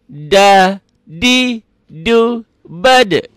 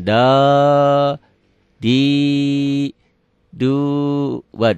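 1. Vokalnya pendek dan terputus. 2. Vokalnya dipanjangkan. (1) "Harus pendek" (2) "Jangan jangan kepanjangan"

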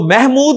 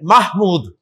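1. पहला स्वर 'e' जैसा बोला जाता है। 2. पहला स्वर 'a' जैसा बोला जाता है। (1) "तो महमूद नहीं है" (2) "अरबी प्रोनाउंसिएशन महमूद है"

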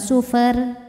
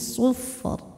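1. R di akhir itu ringan dan tipis. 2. R di akhir itu berat dan tebal. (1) "Jadi bukan sufer" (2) "ro-nya ditebalkan"

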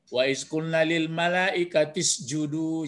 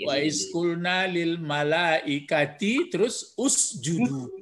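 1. Kata terakhir menyambung dengan kata sebelumnya, vokalnya dihilangkan. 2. Kata terakhir dimulai dengan vokalnya sendiri, terpisah. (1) "Cuma karena menyambung" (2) "Jadi aslinya apa itu?"

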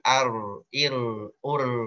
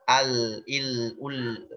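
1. R punya getaran ringan, sekitar beberapa kali ketukan. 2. Getaran r hilang dan terdengar seperti l. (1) "getarannya itu 1 sampai 3" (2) "bukan juga hilang"

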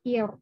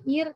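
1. Bunyi r itu tebal dan berat. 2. Bunyi r itu tipis dan ringan. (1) "ini dibacanya tebak... tapi ir" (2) "Jangan ir"

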